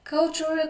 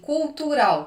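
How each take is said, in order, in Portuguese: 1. A palavra é pronunciada com sons ingleses. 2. A palavra é pronunciada com sons portugueses. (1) "a gente lê assim" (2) "eu não sei pronunciar, eu vou ler assim"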